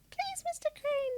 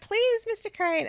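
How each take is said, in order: First: The line is said in a soft, girly voice. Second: The line is screamed loudly.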